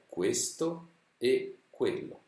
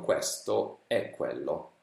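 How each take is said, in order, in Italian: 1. Tutte le E sono pronunciate chiuse. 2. Tutte le E sono pronunciate aperte. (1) "La pronuncia corretta è" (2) "Se invece lo legge un sardo o un calabrese, leggerà così"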